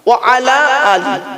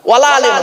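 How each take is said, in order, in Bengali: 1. wa ও ala আলাদা; বাক্যাংশ 'ali' দিয়ে শেষ। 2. wa ও ala একসাথে; বাক্যাংশ 'ale' দিয়ে শেষ। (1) "কি বললাম বাবা?" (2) "নয়। এ খুব মারাত্মক বড় ভুল"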